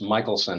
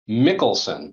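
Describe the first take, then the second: First: The middle consonant sounds like sh. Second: The middle consonant sounds like k. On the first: This is how the speaker's family says the name. "it's actually pronounced Michelson" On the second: This is how some relatives say the name. "relatives ... who pronounce their name, um, Mickelson"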